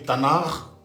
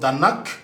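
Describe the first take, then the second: First: The word ends with a throaty, r-like sound. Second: The word ends with a hard k sound. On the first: "pas du tout R comme tel, mais un peu R. Voilà, donc ça fait Tanar" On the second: "en français, ça donne Tanak"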